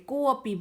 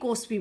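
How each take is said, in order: First: The vowels are said with no s sound. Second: An s sound is inserted before the p. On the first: The speaker calls it right. "आवाज इसकी अ ही आती है, को अपी बोला जाता है" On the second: The speaker calls it wrong. "कुछ बच्चे इसको कोस्पी कोस्पी बोलते हैं, वो बहुत गलत है"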